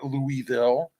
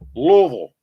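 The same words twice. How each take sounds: First: Each syllable of the name is pronounced distinctly. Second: The name is mumbled, as if through a full mouth. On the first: The speaker calls it wrong. "It's not Louisville" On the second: The speaker calls it right. "Like you got a mouthful of stones"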